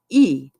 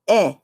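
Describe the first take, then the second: First: The vowel is said as the letter's name. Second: The vowel is said as its short sound. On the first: The speaker calls it wrong. "I was reading the word, the letter, not uh, saying the the the sound" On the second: The speaker calls it right.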